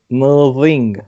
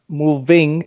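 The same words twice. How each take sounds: First: The v is swapped for a tongue sound. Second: The v is said normally with the lips. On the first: "it becomes a mo- moving" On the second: "the moving"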